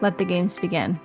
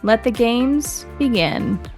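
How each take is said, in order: First: It is said flat, with little emotion. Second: It is said dramatically but with control.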